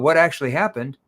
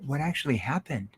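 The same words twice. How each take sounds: First: The question sounds merely curious. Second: The question sounds genuinely concerned. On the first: The asker just wants to know the details. The speaker calls it wrong. "That's a curious tone" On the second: The asker cares about the other person's situation. The speaker calls it right. "See, that's a concerned tone"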